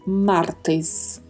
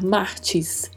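First: The last syllable is 'tes' with a closed e. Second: The last syllable sounds like 'ti'. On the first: The speaker calls it right. "É sempre T com esse E fechado" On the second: The speaker calls it wrong. "Não existe a pronúncia TI no espanhol. Então não podemos falar martes"

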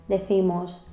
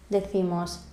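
No difference in how they are said.

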